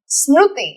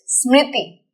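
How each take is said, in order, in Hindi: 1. 'Sm' के बाद का स्वर ru जैसा सुनाई देता है। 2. 'Sm' के बाद का स्वर ri जैसा सुनाई देता है। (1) "It is not Smruti" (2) "It is Smriti"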